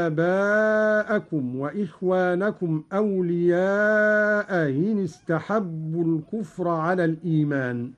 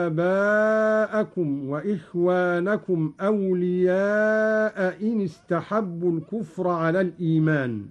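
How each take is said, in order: First: أولياء إن with the second hamza eased between hamza and ya. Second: Said in the usual way. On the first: Shown as a demonstration. Teacher demonstrating Qalun's bayna bayna hamza, chanted. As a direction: soften the hamza of إن after أولياء. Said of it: "هكذا". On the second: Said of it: "قرأ قالون بتسهيل الهمزة بين بين".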